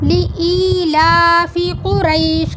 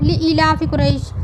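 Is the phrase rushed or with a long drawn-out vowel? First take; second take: drawn-out; rushed. First: It is said slowly with the long vowel stretched. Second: It is said quickly with short vowels. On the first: The speaker calls it right. "ली अलग पढ़ेंगे और ई को थोड़ा खींचेंगे" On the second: The speaker calls it wrong. "हम जल्दी से पढ़ देते हैं। ली इलाफि कुरैश ऐसे नहीं पढ़ेंगे"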